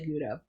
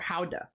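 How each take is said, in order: First: The word starts with a hard G sound. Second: The word starts with a breathy H-like sound. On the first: This is how people in the US say it. "in the U S people say Gouda" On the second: This is how the speaker thinks it is really pronounced. "I think it's pronounced Gouda or Howda"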